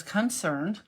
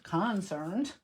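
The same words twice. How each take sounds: First: Said in the usual way. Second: "concerned" with a full CON at the front; wrong-syllable emphasis. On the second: Real, not acted. Crafter trips over her own word, wrong-syllable emphasis. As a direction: say "concerned" as CON-cerned, first syllable stressed. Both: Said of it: "I put the emphasis on the wrong syllable".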